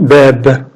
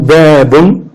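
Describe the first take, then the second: First: The word stops on a bare final consonant. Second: The word ends with the full '-un' ending. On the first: The reader pauses on this word. "on peut dire aussi Bab" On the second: The reader continues without stopping. "Ou Babun"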